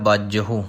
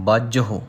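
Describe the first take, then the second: Both takes have the same delivery.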